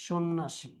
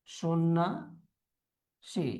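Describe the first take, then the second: First: Said in the usual way. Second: সন্ন্যাসী low, soft, as "sonna ... si"; broken into parts. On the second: Shown as a demonstration. Teacher dictating to students, slowly in parts. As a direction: leave a long gap before the end of সন্ন্যাসী.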